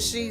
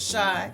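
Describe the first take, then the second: First: The vowel sounds like the one in 'see'. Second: The vowel sounds like the one in 'sky'. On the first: "some people pronounce it she" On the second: "some people pronounce it shy"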